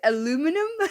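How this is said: It is said the American way, four syllables. This is what you call it. "You guys call it aluminum?"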